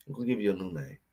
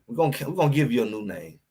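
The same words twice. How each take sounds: First: Softly, almost under his breath; quiet menacing. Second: Said in the usual way. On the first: Acted. Repeats the threat to rival player.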